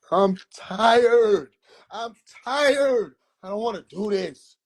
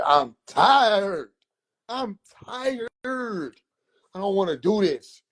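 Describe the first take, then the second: First: Frustrated whine. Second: Put-on whining high like a worn-out kid; whiny complaint.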